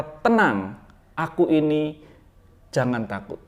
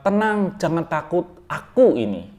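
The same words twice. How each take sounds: First: Said in the usual way. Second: "Tenang, jangan takut, aku ini" with aku ini moved to the end; wrong word order. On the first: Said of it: "Tapi Tuhan berkata". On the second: Shown as a demonstration. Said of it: "Bukan begitu".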